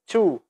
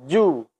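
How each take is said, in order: First: It starts with a breathy ch sound. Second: It starts with a voiced j sound. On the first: The speaker calls it wrong. "Jangan sampai dibaca cu. Ah, itu tidak boleh. Itu angin terlalu berlebihan" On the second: The speaker calls it right. "Posisikan makhraj dengan benar"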